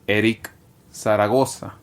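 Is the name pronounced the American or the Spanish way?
Spanish. The name is pronounced with Spanish sounds. This is how the name is said at home. The speaker calls it right. "I've always loved how it was pronounced since the moment I was born"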